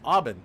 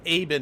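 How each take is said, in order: First: The name is said with a Dutch pronunciation. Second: The first vowel sounds like the English letter A. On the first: This is how it is said in Holland. "and there it's pronounced Aben" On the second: This is how the family says it now. "The name's pronounced Aben like the letter A"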